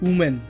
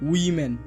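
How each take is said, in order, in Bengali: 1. প্রথম স্বরধ্বনিটি 'oo' এর মতো শোনায়। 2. w এর পরে প্রথম স্বরধ্বনিটি 'ih' এর মতো শোনায়। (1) "এটির উচ্চারণ উমেন না হয়ে" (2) "হবে উইমেন"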